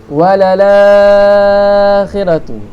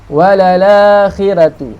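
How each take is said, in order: First: The long vowel is held for six beats. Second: The long vowel is held for two beats. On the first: "enam harakat" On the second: "Dua harakat"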